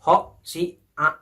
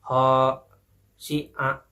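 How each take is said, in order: First: The vowels are short and firmly clipped. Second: The vowels are drawn out long. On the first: The speaker calls it right. "Jadi yang benar adalah baca... harus tegas seperti itu" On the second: The speaker calls it wrong. "jangan dibacanya seperti ini... itu salah ya karena kan ada terdengar uh, nada panjang"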